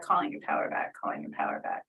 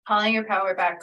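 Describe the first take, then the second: First: Fading from soft to a whisper; whispered mantra. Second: Chanted, a firm, louder call of the mantra; chanted, call the power back with intent. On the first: Healer repeating the mantra, fading into a whisper. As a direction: let the chant dissolve into breath. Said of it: "mantra fades to whisper". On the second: Healer chanting to the client, firm and louder. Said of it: "chanting the mantra". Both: Shown as a demonstration.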